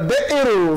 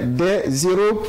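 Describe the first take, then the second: First: No z sound comes before héros. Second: A z sound links des to héros. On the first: The speaker calls it right. "Dites tout simplement euh, des héros" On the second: The speaker calls it wrong. "ne dites plus jamais des héros quand c'est au pluriel"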